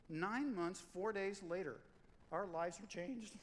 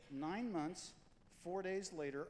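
First: Nine months, four days later, slowed and leaned on, each phrase falling; slow emphatic repeat. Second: Said in the usual way. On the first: Shown as a demonstration. Pastor repeating the birth story to the congregation, slow and emphatic. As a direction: land each phrase slowly, nine and four hit hardest.

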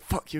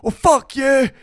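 First: Muttered insult. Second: Loud, high mock-angry retort; guttural outburst. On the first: Retold or imitated. Retelling the dad's insult from the floor, muttered. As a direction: toss the insult out under your breath. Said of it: "it was spitting and be like". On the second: Woman answering the wee dad back, guttural outburst. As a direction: explode into the swear word. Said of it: "such a guttural reaction".

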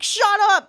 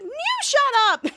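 First: Raised, loud mock exclamation; acted thrilled disbelief. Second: Much higher, slow, drawn-out squeal; put-on high voice, hammed-up; mock squealed comeback. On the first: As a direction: play the dad blurting it out, high and loud. Acts dad's disbelieving exclamation. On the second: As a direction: top him with a high, stretched-out shriek. Daughter tops dad's exclamation.

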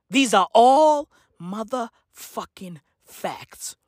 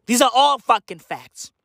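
First: Slow, with pauses splitting "motherfucking facts"; word-by-word emphasis. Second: Said in the usual way. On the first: Real, not acted. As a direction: draw out ALL, then space out "motherfucking facts". Same claim repeated word by word.

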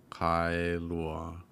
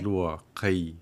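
First: Kailua said the usual English way, plain kai; common mispronunciation. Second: Kailua with kai split into ka-i; correct Hawaiian pronunciation. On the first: Host demonstrates the wrong way locals say it, plainly. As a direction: say kailua the way most people get it wrong. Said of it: "often mispronounced as kailua". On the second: Host shows the right Hawaiian way, carefully. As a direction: stress kai, open the a then glide to i. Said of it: "But we want". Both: Shown as a demonstration.

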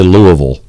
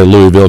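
First: Louisville said as LOO-uh-vul; own local pronunciation. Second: Louisville said as LOO-ee-vil; Ali's pronunciation. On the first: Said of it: "I say Louisville". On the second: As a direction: give Louisville three syllables, with a clear EE in the middle. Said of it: "'cause that's how he said it". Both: Shown as a demonstration.

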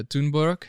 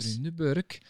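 First: Swedish pronunciation of Thunberg, tʊnbɛrk; Swedish accent. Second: Thunberg again, Swedish TOO-nbook sound; Thunberg, Swedish vowels, higher pitch; Swedish accent. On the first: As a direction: say Thunberg the Swedish way, TOON-berk. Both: Real, not acted. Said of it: "You say that with a Swedish accent".

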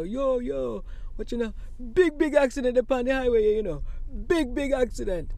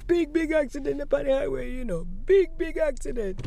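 First: Imitating a Jamaican man, higher; Jamaican accent. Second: Replaying the Jamaican man, higher and louder; Jamaican accent. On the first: Passer-by on highway shouting about accident, Jamaican accent. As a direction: Jamaican accent, loud and quick. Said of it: "I heard a Jamaican accent". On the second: Recalling the highway man's words, Jamaican accent. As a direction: Jamaican accent with punch on big. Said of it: "this Jamaican accented gentleman".

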